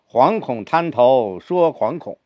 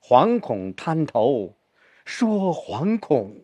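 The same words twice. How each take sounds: First: Both 惶恐 are said with equal weight. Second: The second 惶恐 is said more heavily.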